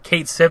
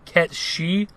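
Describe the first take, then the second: First: The name ends with a 'sith' sound. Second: The name ends with a 'shee' sound. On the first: This is the habitual pronunciation since childhood. "I've just always pronounced it Cait Sith ever since I was a kid" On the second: This is the official pronunciation. "the actual pronunciation for his name, I believe, is supposed to be Ket Shi"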